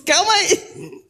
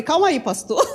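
First: Slow, laughing through the words. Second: Said in the usual way. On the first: Retold or imitated. Preacher laughs at pastor Rubens setting Monday.

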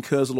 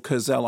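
First: Kurzel with stress on the first syllable; first pronunciation. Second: Kurzel with stress on the last syllable; alternative pronunciation. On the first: Film critic unsure of the director's name, Kurzel front-stressed. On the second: Film critic offering another version of the director's name, Kurzel end-stressed. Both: Shown as a demonstration. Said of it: "not sure how you pronounce it".

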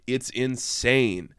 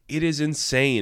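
First: Said in the usual way. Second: Is pushed with a falling tune, It is insane; stress on is. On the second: Shown as a demonstration. Reviewer insisting the plot is insane, stress on is. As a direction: lean on the word is to insist.

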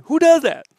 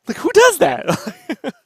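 First: DOES hit high and loud in disbelief; incredulous stress. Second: "who does that" stretched out slowly, high and loud; slow incredulous repeat. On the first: Ranting to his co-host about the trailer company, incredulous. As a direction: punch "does" like you can't believe it. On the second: Repeating the question to his co-host, slow and incredulous. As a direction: drag out "does" in disbelief. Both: Real, not acted.

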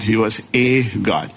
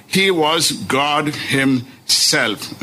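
First: "a" as a full "ay" before God; stress on A. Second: "God himself" drawn out slowly, HIM-SELF split; very slow, weight on GOD and each part of himself; emphatic declaration. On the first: Preacher explaining the altered verse, stressing A. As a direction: lower pitch, lean on the A in "a God". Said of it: "Just introduction of one single letter A". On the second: Preacher correcting the altered verse, slow emphatic stress. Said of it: "But John is declaring". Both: Shown as a demonstration.

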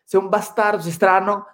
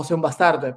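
First: Lightly put-on Swedish-accented Italian; Ibra. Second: Said in the usual way. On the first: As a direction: mimic a Swede's marked Italian accent. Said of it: "si se escucha con el acento de Ibra". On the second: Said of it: "pero si le digo como lo dice Ibra".

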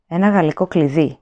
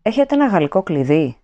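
First: Listless. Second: Said in the usual way. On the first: A narrator's reading. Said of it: "είπε άνευρα η κυρία Πάρσονς". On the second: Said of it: "ρώτησε ο Winston".

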